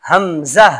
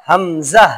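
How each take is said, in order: The two takes are said the same way.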